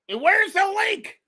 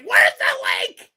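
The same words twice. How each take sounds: First: Said in the usual way. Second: Much lower, louder laughing mock voice; imitating Dia. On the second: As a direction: drop way down and boom the question through a laugh. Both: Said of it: "Dia say".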